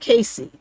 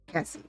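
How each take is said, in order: First: The first vowel is long, as in 'day'. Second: The first vowel is short, as in 'cat'. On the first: The speaker calls it wrong. "I want to say Casey" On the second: The speaker calls it right. "but it's Cassie"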